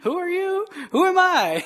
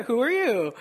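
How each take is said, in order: First: Higher, teasing God voice; God throws it back with a grin; mock God retort. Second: Said in the usual way. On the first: God answers the complainer, higher and teasing. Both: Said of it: "God looking down and be like".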